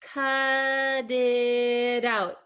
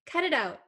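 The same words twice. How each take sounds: First: The phrase is said at a normal speed. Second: The phrase is said very fast. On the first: "listen one more time" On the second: "I'm going to say it really fast"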